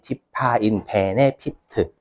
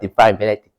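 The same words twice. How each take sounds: First: It is said with a flat Korean accent. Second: It is said with a rolled English accent. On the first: "한국어 잘하죠?" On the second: "영어로 하면"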